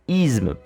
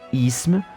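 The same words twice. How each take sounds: First: The consonant before m is a voiced z. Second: The consonant before m is a voiceless s. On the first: "C'est par l'assimilation que s'explique la prononciation" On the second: "plutôt que"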